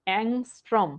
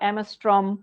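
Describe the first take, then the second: First: It is said with 'ng' and ends in 'm'. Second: It is said with 'm' and ends in 'm'. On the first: The speaker calls it right. "এটা হচ্ছে অ্যাংস্ট্রম।" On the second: The speaker calls it wrong. "তোরা অ্যামস্ট্রম"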